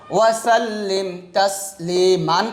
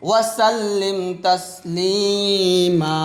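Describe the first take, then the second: First: The final word ends with an n sound. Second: The final vowel is drawn out, with no n. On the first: The reading continues without stopping. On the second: The reader stops at this word.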